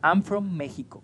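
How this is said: Mexico is pronounced the Spanish way.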